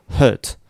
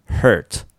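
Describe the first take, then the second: First: "hurt" with a muffled er and no r; British-style "hurt", closed long vowel. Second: "hurt" with tongue curled into r; American-style "hurt". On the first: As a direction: keep the mouth narrow on "hurt". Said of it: "イギリスっぽい音". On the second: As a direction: model "hurt" with an r-coloured er. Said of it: "アメリカ発音". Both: Shown as a demonstration.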